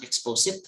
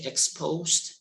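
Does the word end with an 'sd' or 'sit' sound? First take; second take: sit; sd. First: The word ends with a 'zit' sound. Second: The word ends with a 'zd' sound. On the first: The speaker calls it wrong. "exposit is not the correct pronunciation of exposed" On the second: The speaker calls it right. "exposed, not exposit"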